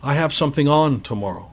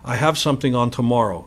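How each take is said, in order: First: The word on is said with stress. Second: The word on is said without stress. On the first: The speaker calls it right. "You want to stress on" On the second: The speaker calls it wrong. "You don't want to say"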